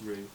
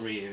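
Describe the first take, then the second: First: The name is one plain syllable: 'roo'. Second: The name has a 'y' glide: 'ree-yoo'. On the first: The speaker calls it right. "it's Rue, as in you rue the day" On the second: The speaker calls it wrong. "it's not Ryu"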